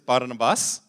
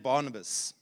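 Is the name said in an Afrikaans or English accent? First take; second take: Afrikaans; English. First: The name is said in an Afrikaans accent. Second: The name is said in an English accent.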